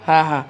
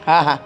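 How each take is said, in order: The two takes are said the same way.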